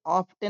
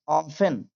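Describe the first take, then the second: First: "often" with the t sounded, op-ten; t pronounced. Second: "often" without a t, off-en; silent t. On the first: Teacher showing what not to read, "often" with a t. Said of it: "इसे often नहीं पढ़ेंगे". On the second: Teacher showing learners the reading, "often" with silent t. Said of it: "इसमें टी silent है". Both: Shown as a demonstration.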